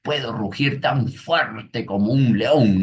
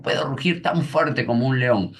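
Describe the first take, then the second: First: Niño orgulloso. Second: Niño que ruge. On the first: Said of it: "Y el niño le dice". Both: Retold or imitated.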